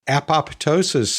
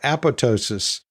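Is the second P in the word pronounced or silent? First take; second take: pronounced; silent. First: The second P sound is clearly pronounced. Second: The second P sound is left silent. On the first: "when you pronounce the P" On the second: "keeping it silent like it, quote, is supposed to be pronounced"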